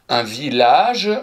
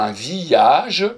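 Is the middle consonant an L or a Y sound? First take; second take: L; Y. First: The middle consonant is an L sound. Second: The middle consonant is a Y sound. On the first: The speaker calls it right. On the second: The speaker calls it wrong.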